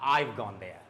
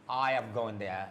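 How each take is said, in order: First: Have is shortened and joined onto I. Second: Have is said as a full separate word.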